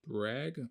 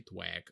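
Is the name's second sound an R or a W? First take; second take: R; W. First: The name is said with an r sound. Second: The name is said with a w sound. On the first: The speaker calls it right. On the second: The speaker calls it wrong.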